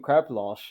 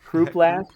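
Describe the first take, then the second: First: The word is pronounced with a Dutch reading. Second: The word is pronounced with an English reading. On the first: "I'm tempted to say it's Dutch pronunciation" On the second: "Who knows what the Brits think it's it should be pronounced as?"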